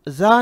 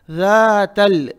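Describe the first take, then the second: First: जा with a buzzing z, not lisped; wrong z sound. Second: जातल drawn out, tongue tip between the teeth; correct soft dhal. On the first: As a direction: say जा as za, tongue behind the teeth. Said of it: "जा नहीं कहेंगे". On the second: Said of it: "जा नहीं कहेंगे, जा". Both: Shown as a demonstration.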